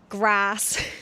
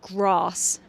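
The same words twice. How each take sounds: First: It is said in a Cornish accent. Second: It is said in a posh accent. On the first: "we say grass" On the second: "But if you were posh, you would say bath and grass"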